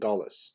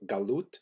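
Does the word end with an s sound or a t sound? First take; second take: s sound; t sound. First: The word ends with an s sound. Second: The word ends with a t sound. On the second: "In Hebrew"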